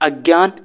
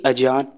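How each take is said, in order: First: The middle consonant is said as 'gy'. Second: The middle consonant is said as plain 'j'. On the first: The speaker calls it right. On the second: The speaker calls it wrong.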